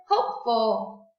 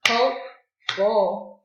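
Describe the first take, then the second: First: Said in the usual way. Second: "Hopeful" slow, in two loud beats; clapped-out syllables. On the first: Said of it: "Everyone say it". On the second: Shown as a demonstration. Teacher claps the word out with pupils, syllable by syllable. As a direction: say "Hopeful" as hope, pause, full. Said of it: "Let's clap it out".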